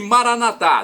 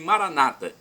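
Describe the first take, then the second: First: The stress is on the last syllable. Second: The stress is on the second-to-last syllable. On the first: This is how Catholics say it. "Nós, católicos, colocamos na última" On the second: This is how Protestants say it. "Modificam a tônica, colocando-a na penúltima sílaba"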